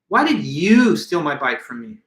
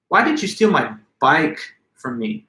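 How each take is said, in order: First: The word you carries strong emphasis. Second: The word bike carries strong emphasis. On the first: Of all people, this person was the thief. "I could have added the emphasis to the word you" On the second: Of all things, this one item was taken. "Now I've placed the emphasis on the word bike"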